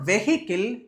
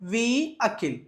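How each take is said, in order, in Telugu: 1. మధ్యలో h శబ్దం వినిపిస్తుంది. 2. మధ్యలో h శబ్దం వినిపించదు. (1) "It's not vehicle" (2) "The H is a silent letter here"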